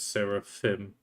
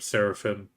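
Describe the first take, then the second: First: The name is said at a careful, full pace. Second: The name is said quickly and run together.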